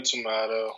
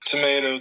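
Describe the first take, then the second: First: "tomato." with an open "ah", toh-MAH-toe; stressed middle of "tomato." as an open a; other pronunciation. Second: "Tomato," with a long "ay", toh-MAY-toe; stressed middle of "Tomato," as in "mate"; long-A pronunciation. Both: Shown as a demonstration. Two pronunciations of one word contrasted.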